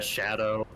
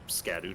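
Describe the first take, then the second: First: It begins with 'sh' and sounds like 'shadow'. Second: It begins with 'sk' and sounds like 'skadoo'. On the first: This is the old historical pronunciation. "Old English it would be pronounced" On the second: This matches the style of the other names. "I'd say Scadu Tree"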